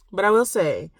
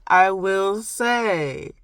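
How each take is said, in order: First: Said in the usual way. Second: Stretched, slow "I will say", louder and higher; slow, playful proclamation; drawn-out emphasis. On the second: Real, not acted. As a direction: draw out "I will say" after a laugh. Playful drawn-out repeat after laughing.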